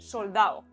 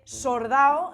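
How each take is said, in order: First: It has the standard l sound. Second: It has a Chilean r in place of l.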